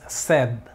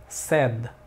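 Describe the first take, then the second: The two takes are said the same way.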